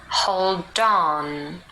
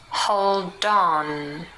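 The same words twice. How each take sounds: The two takes are said the same way.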